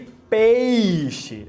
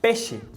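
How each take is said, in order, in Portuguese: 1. A primeira sílaba tem um ditongo completo, de duas partes. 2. A primeira sílaba tem uma vogal simples. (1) "em vez de"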